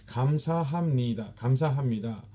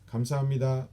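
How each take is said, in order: First: 감사합니다 with every syllable spaced out; slow. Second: 감사합니다 run together quickly, the last syllable falling; smooth and fast. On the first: Instructor showing the wrong, slow way to thank. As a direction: spell out 감사합니다 slowly, one sound at a time. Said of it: "we don't say it like that slow". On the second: Instructor showing how Koreans really say thanks, smooth and fast. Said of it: "like, smooth and fast". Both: Shown as a demonstration.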